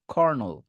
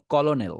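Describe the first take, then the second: First: কর্নেল said "KHOR-nol"; two syllables, khor-nol; correct colonel. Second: কলোনেল said as spelt, "ko-lo-nel"; three syllables with an l: ko-lo-nel; mistaken colonel. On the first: Teacher gives students the real pronunciation, "khor-nol". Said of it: "এটা আসল উচ্চারণ হবে". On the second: Teacher mimics what many say, spelt-out "ko-lo-nel". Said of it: "অনেকে বলে". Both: Shown as a demonstration.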